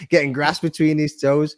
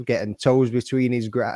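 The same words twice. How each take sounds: First: Slow, laughing fix of the slip; laughing correction. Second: Said in the usual way. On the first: Real, not acted. S1 corrects his own tongue slip, laughing. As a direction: say it right through a laugh.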